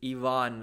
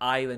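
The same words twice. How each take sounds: First: The name is said the native way. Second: The name is said the Western English way. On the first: The speaker calls it right. "it's Ivan" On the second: The speaker calls it wrong. "whenever they see I V E N, they say Ivan. It's not Ivan"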